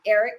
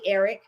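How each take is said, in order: First: "Eric" in the speaker's own accent, softened middle; natural accent slip. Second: "Eric" said carefully in the standard way; careful pronunciation. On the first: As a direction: let "Eric" slide out naturally, uncorrected. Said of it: "it never comes out that way naturally". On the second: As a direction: deliberately correct "Eric", both syllables kept. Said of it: "although I can say Eric". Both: Shown as a demonstration.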